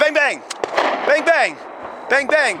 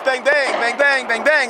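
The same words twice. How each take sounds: First: The gaps between the bang pairs are long. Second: The gaps between the bang pairs are short. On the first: The shooter takes a long time finding the next target. The speaker calls it wrong. "instead of" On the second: The shooter moves quickly from one target to the next. The speaker calls it right. "Now it's"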